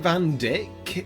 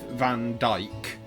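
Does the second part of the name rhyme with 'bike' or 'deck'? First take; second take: deck; bike. First: The second word has a short vowel, like 'deck'. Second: The second word has a long 'eye' vowel, like 'bike'. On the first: This is how later games pronounce it. "I think they pronounce it Van Dyck in later games" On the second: This is the speaker's own preferred reading.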